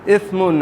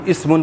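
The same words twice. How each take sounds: First: اسمن with a careful Arabic first consonant; correct Quranic pronunciation. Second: Said in the usual way. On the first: Shown as a demonstration. Teacher corrects the usual reading, careful pronunciation. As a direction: articulate اسمن slowly and precisely. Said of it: "ہم اسمن پڑھتے ہیں". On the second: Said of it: "سین کے ساتھ اس کی ادائیگی".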